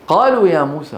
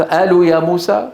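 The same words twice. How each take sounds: First: Proper Quranic قالوا, full qaf at the start; correct qaf. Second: Wrong dialect reading of قالوا, no qaf; hamza for qaf. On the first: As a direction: model reading, clear uvular q in قالوا. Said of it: "لابد". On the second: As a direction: recite قالوا as "aalu", glottal stop for the q. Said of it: "هل يقرأ القرآن هكذا؟". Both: Shown as a demonstration.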